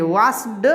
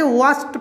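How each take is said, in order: First: "वॉश्ड" said as vaasd; ending read as D. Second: "वॉश्ड" said as vaast; ending read as T. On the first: Teacher shows the rejected reading, "वॉश्ड" ending in D. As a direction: say "वॉश्ड" with voiced final D. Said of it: "नहीं पढ़ेंगे". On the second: Teacher models the rule, "वॉश्ड" ending in T. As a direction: say "वॉश्ड" with final D as T. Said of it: "तो इसलिए यहाँ पे वॉश्ड पढ़ेंगे". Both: Shown as a demonstration.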